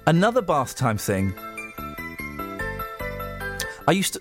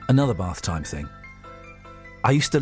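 First: It is read in an amused, near-laughing tone. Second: It is read in a soft, sensitive tone. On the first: The speaker calls it wrong. "Don't laugh" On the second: The speaker calls it right. "Do your sensitive voice"

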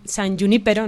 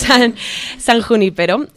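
First: The j is said without the harsh throat sound. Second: The j is a harsh throat sound. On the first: It sounds cooler. "creo que queda como más guay decir" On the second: It reflects the speaker's own Spanish way of speaking. "soy castellano parlante y meto la jota"

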